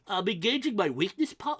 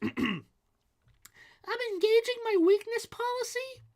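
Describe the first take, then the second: First: It is said in his normal adult voice. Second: It is said in a put-on child's voice.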